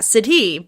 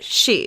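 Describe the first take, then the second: First: The word is sounded out following its spelling. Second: The word sounds just like English 'she'. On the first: The speaker calls it wrong. "Not Sidhe" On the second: The speaker calls it right. "but she"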